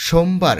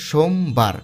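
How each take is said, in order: First: Said in the usual way. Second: সোমবার broken as সোম, বার; split into syllables. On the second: Shown as a demonstration. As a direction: pause inside সোমবার between সোম and বার. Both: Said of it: "এই শব্দটাকে ভাঙলে হয়".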